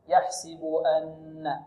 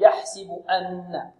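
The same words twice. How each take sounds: First: The glottal stop is clear yet smooth. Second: The glottal stop is pushed out with force. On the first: The speaker calls it right. "هكذا" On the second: The speaker calls it wrong. "والبعض الآخر يلتز الهمز"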